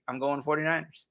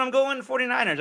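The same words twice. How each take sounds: First: Said in the usual way. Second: Excited pick, pitched up. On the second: Real, not acted. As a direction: announce the pick with a high lift. Announcing the pick.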